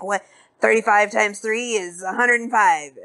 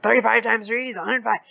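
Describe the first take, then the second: First: Said in the usual way. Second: Quick numbers. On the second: Retold or imitated. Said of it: "spits out numbers really fast and hard".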